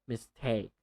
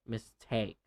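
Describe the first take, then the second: No difference in how they are said.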